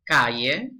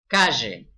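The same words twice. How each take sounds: First: The double-L sounds like English y. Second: The double-L sounds like English sh.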